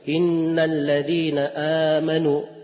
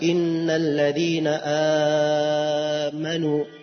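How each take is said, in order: First: The long vowel is held for a short count. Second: The long vowel is held for an extended count. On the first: This is how most readers recite it. "cuma 2 harokat saja" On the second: This follows a particular recitation tradition. "kalau nafi bisa 4"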